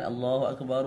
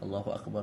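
First: It is said slowly and drawn out. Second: It is said quickly.

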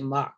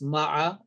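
First: The final ayn sound is left out. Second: The final ayn sound is clearly pronounced. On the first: This is how common everyday speakers say it. "Sometimes the ayn is not pronounced with the fatha" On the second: This is the form used in the recitation. "but here is ma'a"

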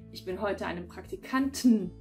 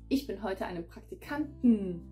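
First: The weak e is dropped but t is kept. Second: Both the weak e and t are dropped. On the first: "verschlucken sie gerade diese schwachen E's am Ende" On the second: "Da verschlucken wir sogar das T"

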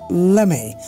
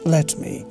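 First: The two words blend into one reduced form. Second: The two words are said fully and separately. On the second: "What is the full form?"

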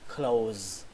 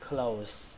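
First: The word ends with a buzzing z sound. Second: The word ends with a hissing s sound. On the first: "Và âm cuối cùng là âm z, z, âm z đấy" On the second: "các bạn có thể đọc là âm s cũng được, nó cũng không sai"

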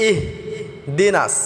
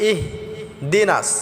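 No difference in how they are said.

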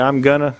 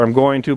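First: Going to is reduced to gonna. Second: Going to is said in full. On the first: This is how the speaker normally talks. "I say I'm gonna, because I live in South Georgia" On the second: This is not how the speaker normally talks. "but I don't say I'm going to"

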